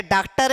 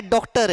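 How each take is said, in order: First: डॉक्टर said as "डाक्टर", wide आ; wrong आ vowel. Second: डॉक्टर said as "डोक्टर", closed ओ; wrong ओ vowel. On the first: Teacher rules out a version for students, आ in डॉक्टर. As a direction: say डॉक्टर with a plain आ, as the mistake. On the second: Teacher rules out a version for students, ओ in डॉक्टर. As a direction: say डॉक्टर with a rounded ओ, as the mistake. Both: Shown as a demonstration. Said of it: "ना ये डॉक्टर है".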